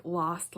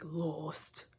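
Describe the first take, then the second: First: Said in the usual way. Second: "lost" with a long OH, like "loast"; weird old-timey accent. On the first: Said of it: "to pronounce things like". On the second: Shown as a demonstration. Host mimicking an actor's odd pronunciation, "lost" as "loast". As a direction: say "lost" with the vowel of "boat". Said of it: "the weird accent".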